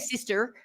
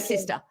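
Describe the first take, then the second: First: The final R sound is clearly pronounced. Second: The final R sound is dropped. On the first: "We don't say sister with an er, er" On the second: "in Australia we don't pronounce our R's"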